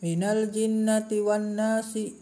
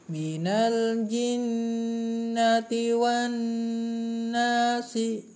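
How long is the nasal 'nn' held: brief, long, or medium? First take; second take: brief; long. First: It is read fast with a very brief nasal hum. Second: The nasal hum is held for three counts. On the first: The nasal sound is not given its full value. "ketika membaca cepat maka akan seperti ini" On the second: The nasal sound is deliberately lengthened as a safe habit. "kalau membiasakan tiga"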